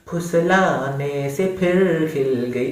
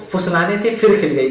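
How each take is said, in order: First: The words start with an aspirated p sound. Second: The words start with an f sound. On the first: The speaker calls it right. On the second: The speaker calls it wrong.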